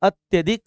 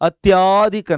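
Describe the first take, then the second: First: The 'ya' sound is short, half-pronounced. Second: The 'ya' sound is long, fully pronounced. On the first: The speaker calls it right. "ಅತ್ಯಧಿಕ್ ಅಂತೇಳಿ ಬರುತ್ತೆ" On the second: The speaker calls it wrong. "ಅತ್ಯಾಧಿಕ್ ಅಂತ ಹೇಳಲ್ಲ"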